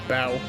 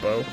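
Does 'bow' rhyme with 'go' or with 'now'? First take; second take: now; go. First: The vowel rhymes with 'now'. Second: The vowel rhymes with 'go'. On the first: It means to bend forward in respect. The speaker calls it right. "Bow, not bow" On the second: It means a ribbon knot or a weapon. The speaker calls it wrong. "Why did I read that as bow twice?"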